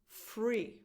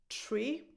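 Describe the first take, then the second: First: The word begins with an f sound. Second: The word begins with a plain t sound. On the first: "is either pronounced tree or free" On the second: "is either pronounced tree or free"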